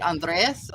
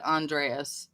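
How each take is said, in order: First: Andreas with the R rolled. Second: Said in the usual way. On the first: Shown as a demonstration. Asking a friend how to say the name, rolled R in Andreas. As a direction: roll the R in Andreas. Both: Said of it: "does Andreas roll his R's".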